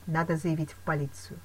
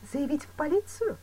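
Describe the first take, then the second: First: Said in the usual way. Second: High-pitched, doubtful question; questioning echo. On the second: A narrator's reading. Woman questioning advice to report him, surprised.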